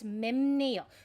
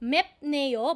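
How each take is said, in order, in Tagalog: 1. Nagtatapos sa tunog na m ang unang pantig. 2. Nagtatapos sa tunog na p ang unang pantig. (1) "you read it as memneo because nasalization rules exist" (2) "mep plus neo"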